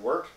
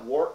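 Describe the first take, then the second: First: The vowel sounds like the one in 'hurt'. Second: The vowel sounds like the one in 'short'. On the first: "but pronounced like wort" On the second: "spelled like wort"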